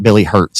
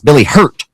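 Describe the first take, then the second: First: The surname ends with an s sound. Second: The surname ends without an s sound. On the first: The speaker calls it wrong. "not Billy Hurts" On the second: The speaker calls it right. "it's Billy Hurt"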